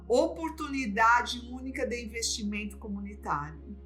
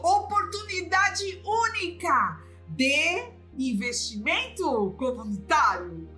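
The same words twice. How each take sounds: First: It is said in a neutral tone. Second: It is said like an enthusiastic saleswoman.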